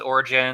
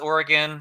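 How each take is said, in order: First: The name is said with a soft j sound. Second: The name is said with a hard g sound. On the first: This is how many people commonly say it. "a lot of people pronounce it Origin" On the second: This is the pronunciation thought to be correct. "I think it's pronounced Oregon"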